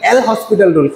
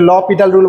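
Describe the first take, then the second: First: The name is said like 'L hospital', with s. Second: The name is said like 'lo-pital', without s. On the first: The speaker calls it wrong. "সেটা কিন্তু না" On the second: The speaker calls it right. "এটা ল পিটাল rule বলা হয়"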